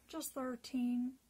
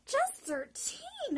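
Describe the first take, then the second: First: Said in the usual way. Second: High, loud astonished cry; shocked disbelief, slowly; exclaimed. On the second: Retold or imitated. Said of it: "I exclaimed".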